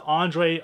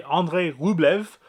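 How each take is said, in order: First: Said in the usual way. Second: Slow, French-accented "Andrei Rublev". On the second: Real, not acted. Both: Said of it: "I said it like a French accent".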